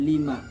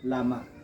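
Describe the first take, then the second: First: The l takes an i vowel, single m. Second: The l takes an a vowel, single m. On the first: "bi kasril lam" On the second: "bi fathil lam"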